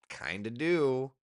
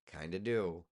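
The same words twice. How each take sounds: First: Slow, teasing, a bit louder; playful drawn-out answer. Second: Said in the usual way. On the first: Pretend. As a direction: savour the words, slowly. Answers own question playfully.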